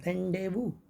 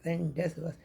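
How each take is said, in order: First: The z and final s are both silent. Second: The z and final s are both pronounced. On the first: The speaker calls it right. "सही pronunciation होता है रेंडेवू" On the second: The speaker calls it wrong. "हम इसको रेंडेजबस पढ़ रहे थे"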